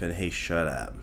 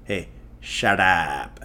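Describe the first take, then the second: First: Said in the usual way. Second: Slow, drawn-out Indian film "Hey, shut up."; Indian movie accent. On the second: Shown as a demonstration. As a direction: stretch "shut up" like a Tamil film hero. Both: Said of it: "In Indian movies, that's how they say".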